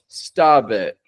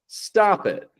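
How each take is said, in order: First: The linking consonant sounds like a voiced B. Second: The linking consonant is a light, soft P. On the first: The speaker calls it wrong. "We don't want to pronounce this stabit" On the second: The speaker calls it right. "we get a light, soft P, but not so light that it's a B"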